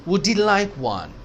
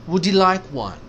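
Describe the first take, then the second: Both takes have the same delivery.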